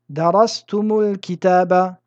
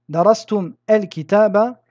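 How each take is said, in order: First: A linking vowel u joins the two words. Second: The two words are joined without a helping vowel. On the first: The speaker calls it right. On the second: The speaker calls it wrong.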